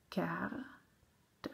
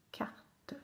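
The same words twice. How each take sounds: First: Carte split as "car - te"; sounded out. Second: Said in the usual way. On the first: Shown as a demonstration. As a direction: pause before the final "te" of Carte. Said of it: "faire les syllabes". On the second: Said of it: "coller les syllabes".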